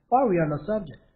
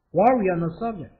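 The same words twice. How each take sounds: First: Said in the usual way. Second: Slowed down, each word clear; slow careful repeat. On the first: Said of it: "first read". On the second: Shown as a demonstration. Teacher repeating the phrase slowly for students. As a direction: model it slowly for learners. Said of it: "repeated slowly".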